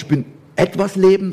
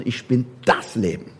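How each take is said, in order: First: Said in the usual way. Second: Bin in Ich bin das Leben said low and falling; softer and firm on bin; settled final das Leben; stress on bin. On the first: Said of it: "Und er sagt auch nicht". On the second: Shown as a demonstration.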